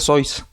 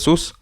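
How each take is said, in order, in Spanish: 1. La vocal es un diptongo 'oy'. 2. La vocal es un sonido 'oo' largo y simple. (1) "por su origen alemán, su apellido pues se pronuncia Sois" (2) "ya le diré sus"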